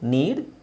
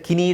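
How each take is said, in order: First: It begins directly with the n sound. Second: It begins with a pronounced k sound. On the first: The speaker calls it right. "ಕೆ silent ಆಗುತ್ತೆ" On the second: The speaker calls it wrong. "ಕಿನೀಡ್ ಅಂತ ಹೇಳಬಾರ್ದು"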